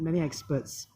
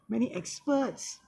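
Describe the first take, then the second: First: The pitch stays level on the phrase. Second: The pitch rises high on the phrase. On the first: "rather than" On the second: "So raise in the pitch and tone"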